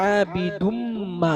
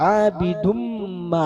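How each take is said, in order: Both takes have the same delivery.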